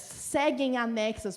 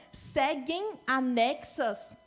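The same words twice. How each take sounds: First: "Seguem anexas" slow, with "Seguem" leaned on; slow stressed repeat. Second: "seguem anexas" stretched very slowly; very slow demo. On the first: Teacher repeating "Seguem anexas" slowly with weight on "Seguem". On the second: Teacher stretching "seguem anexas" very slowly. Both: Shown as a demonstration.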